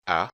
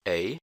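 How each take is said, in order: First: Short open vowel for A, like "aah" cut short; short A sound. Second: "A" said as "ay"; long A sound. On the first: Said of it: "You have the short A sound". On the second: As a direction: give A its long letter-name vowel, ay. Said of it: "starting with the long A sound". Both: Shown as a demonstration.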